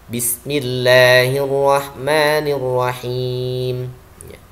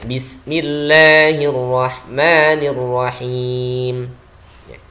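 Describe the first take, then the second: No difference in how they are said.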